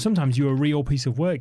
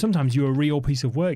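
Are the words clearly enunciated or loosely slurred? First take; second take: enunciated; enunciated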